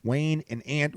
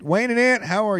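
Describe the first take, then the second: First: Said in the usual way. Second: Much higher, punchy host call; hype intro call. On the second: Shown as a demonstration. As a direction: announce them like a showman. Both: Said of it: "who writes your intros".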